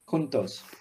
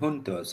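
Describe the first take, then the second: First: The word begins with an h sound. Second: The word begins with an English j sound. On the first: The speaker calls it right. "J's are supposed to be pronounced with a ha" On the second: The speaker calls it wrong. "Were you saying juntos rather than juntos?"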